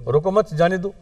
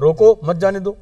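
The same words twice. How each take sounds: First: "रोको मत" as one unit, then "जाने दो"; pause after मत. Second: Raised, louder "रोको", a break, then "मत जाने दो"; pause after रोको. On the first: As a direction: let them go: join "मत" to "रोको", break before "जाने दो". ("रोको मत" सागै, पछै "जाने दो") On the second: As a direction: stop them: set "रोको" apart from "मत जाने दो". ("रोको" माथै जोर अर ठहराव, पछै "मत जाने दो") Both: Shown as a demonstration. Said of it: "उल्टा हो गया".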